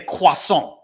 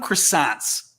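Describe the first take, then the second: First: The word is said with a French pronunciation. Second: The word is said with an American English pronunciation. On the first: It can sound snooty to Americans. "I will not say croissant if I go into a store. I will never say that in American English" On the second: It is the ordinary word used in English. "I think I call them croissants because that's the word we use in English"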